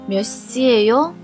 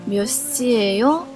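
Both takes have the same delivery.

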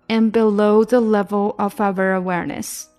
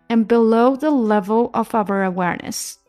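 No difference in how they are said.

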